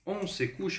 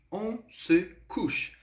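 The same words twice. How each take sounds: First: Said in the usual way. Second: Slow, careful French model sentence; slow model phrase. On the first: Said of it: "eu posso entender dessa forma". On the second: Shown as a demonstration. Teacher modelling French for students, slow and careful. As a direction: spell out each word slowly. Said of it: "quando eu utilizo essa estrutura".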